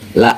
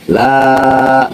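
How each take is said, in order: First: The vowel in 'la' is short. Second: The vowel in 'la' is long. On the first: The speaker surely worships what they worship. The speaker calls it wrong. "Inti bacanya pendek" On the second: The speaker does not worship what they worship. The speaker calls it right. "Dibaca panjang"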